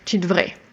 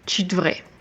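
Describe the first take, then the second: First: Part of devrais is dropped, said quickly. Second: The same.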